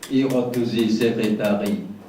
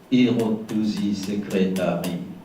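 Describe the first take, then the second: No difference in how they are said.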